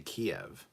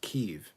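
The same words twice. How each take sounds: First: The city name is said the Russian way. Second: The city name is said the Ukrainian way. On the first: It implies that Russia owns the city. The speaker calls it wrong. "don't say Kiev, because Kiev is the possessive" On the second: It is the city's own original name. The speaker calls it right. "Kiev is the original Ukrainian way to say the city"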